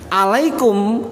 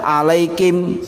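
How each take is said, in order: First: The last syllable has an u vowel. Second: The last syllable has an i vowel. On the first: This is the standard reading. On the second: This is how Wakam dialect speakers read it.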